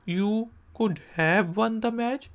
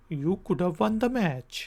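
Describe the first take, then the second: First: Said in the usual way. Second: Could have run together as could-uv; reduced could've. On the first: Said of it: "normal form". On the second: Shown as a demonstration. Teacher contrasting the short form. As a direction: slide through could have. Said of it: "कहते हैं could have".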